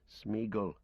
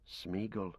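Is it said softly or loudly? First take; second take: loudly; softly. First: It is said more loudly. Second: It is said softly.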